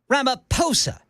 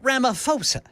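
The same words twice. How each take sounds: First: The 'ph' is sounded like a plain p. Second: The 'ph' is sounded like an f. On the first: The speaker calls it right. "The H is silent" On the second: The speaker calls it wrong. "the last name is not Ramaphosa"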